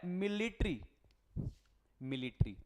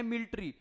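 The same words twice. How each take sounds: First: मिलिट्री with all syllables, mi-li-ṭri; careful full मिलिट्री; right way. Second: मिलिट्री squeezed to "milṭri" as students say it; the clipped student मिलिट्री; wrong way. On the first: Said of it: "क्या होता है?". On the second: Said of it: "मिलिट्री नहीं होता". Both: Shown as a demonstration.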